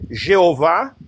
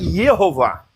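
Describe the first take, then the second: First: The word begins with a J sound. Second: The word begins with a Y sound. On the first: It is read by Portuguese spelling rules. "para nós seria, né, Jeová" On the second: It is read by German spelling rules. "mas se pronuncia Yehová"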